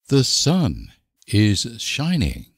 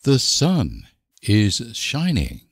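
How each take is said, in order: Both takes have the same delivery.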